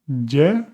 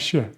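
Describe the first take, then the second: First: The consonant sounds like an English y. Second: The consonant sounds like sh. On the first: This is how it is said in some regions. "in some places you would hear Y" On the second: This is how it is said in Argentina. "in places like Argentina, a completely different sound like sh"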